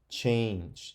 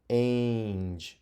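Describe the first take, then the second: First: The vowel is a long A, as in 'cake'. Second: The vowel is a long A, as in 'cake'.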